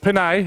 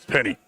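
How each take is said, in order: First: The name ends with an 'ay' sound. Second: The name ends with an 'ee' sound. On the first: The speaker calls it wrong. "it's not Penay" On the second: The speaker calls it right. "it's Penny"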